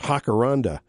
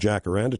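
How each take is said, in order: First: It begins with an H sound. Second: It begins with an English J sound.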